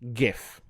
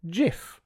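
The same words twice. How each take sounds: First: It begins with a hard G sound. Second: It begins with a soft G sound. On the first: The speaker calls it right. "it is pronounced GIF" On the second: The speaker calls it wrong. "GIF with a soft G"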